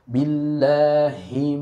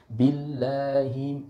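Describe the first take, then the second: First: The h sound is pronounced clearly and fully. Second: The h sound is weak and barely heard. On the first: The speaker calls it right. "Benar-benar kita harus memperjelas huruf ha tersebut" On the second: The speaker calls it wrong. "itu belum sempurna tuh, ya. Nggak jelas itu, seperti tashil"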